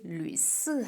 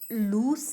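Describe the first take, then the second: First: The first vowel is a fronted ü sound. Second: The first vowel is a plain oo sound. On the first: The speaker calls it right. "ये लुइस है" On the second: The speaker calls it wrong. "ये लूस नहीं है"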